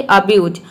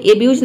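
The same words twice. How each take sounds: First: अब्यूज with a short 'uh' start, the right way; correct pronunciation. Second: एब्यूज with a full 'ay' start, the wrong way; wrong pronunciation. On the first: Teacher giving students the correct अब्यूज, 'uh' start. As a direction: say अब्यूज as 'uh-byooz'. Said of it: "ए के जगह पे अ होगा". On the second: Teacher showing students the wrong एब्यूज, 'ay' start. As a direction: say एब्यूज as 'ay-byooz' to show the mistake. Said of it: "यहाँ पे एब्यूज नहीं". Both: Shown as a demonstration.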